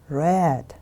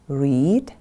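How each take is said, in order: First: The vowel is short, rhyming with 'bed'. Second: The vowel is long, rhyming with 'need'. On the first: It is the past form. "we pronounce it in the different way" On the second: It is the present form. "we pronounce it in the different way"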